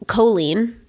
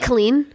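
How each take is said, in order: First: The first vowel is fully and strongly pronounced. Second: The first vowel is dropped, like "clean". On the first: "They overpronounce the O" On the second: "Like a hard K into the lean"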